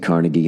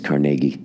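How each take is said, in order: First: It is said the general American way. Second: It is said the local Pittsburgh way. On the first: "we say Carnegie" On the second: "Pittsburgh says Carnegie"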